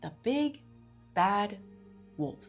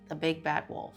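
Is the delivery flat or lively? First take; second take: lively; flat. First: The phrase is said with lively, varied pitch. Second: The phrase is said with flat, even pitch. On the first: "I'm intoning my flux and then I'm going up and then I'm going down" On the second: "instead of"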